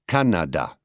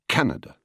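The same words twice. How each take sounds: First: All syllables get roughly equal stress. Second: One syllable is stressed more than others. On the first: This is how French speakers say it. "The French, for instance, tend towards equal stress in a word" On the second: This is how English speakers say it. "as opposed to our Canada"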